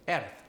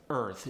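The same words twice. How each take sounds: First: "earth" as airth; Polish-accented "earth" with an air vowel; Polish air sound. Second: Said in the usual way. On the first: Shown as a demonstration. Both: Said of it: "replace it with an air sound".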